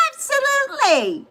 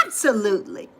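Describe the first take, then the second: First: Much higher, delighted squeak; squeaky high. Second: Said in the usual way. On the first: Real, not acted. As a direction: squeal it happily. Answers then repeats higher.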